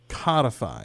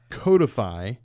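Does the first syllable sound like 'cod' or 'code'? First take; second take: cod; code. First: The first syllable sounds like 'cod'. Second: The first syllable sounds like 'code'. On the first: The speaker calls it wrong. "I tend to pronounce it codify" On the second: The speaker calls it right. "from the root code"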